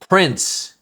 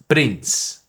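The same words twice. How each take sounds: First: The R is a soft American R. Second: The R is rolled or tapped.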